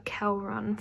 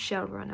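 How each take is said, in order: First: The name begins with a hard K sound. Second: The name begins with an SH sound. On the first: The speaker calls it wrong. "So I called her Kelrun for the whole of the book" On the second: The speaker calls it right. "but it's pronounced Shelrun apparently"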